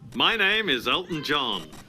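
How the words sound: It is said showily, with showbiz flair.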